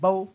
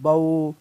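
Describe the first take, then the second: First: The syllable is said harshly with a jerk. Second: The syllable is said softly and smoothly. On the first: The speaker calls it wrong. "इतना भी सख्त नहीं करना कि वो झटका ही शुरू हो जाए" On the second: The speaker calls it right. "इनको नरमी के साथ पढ़ना है"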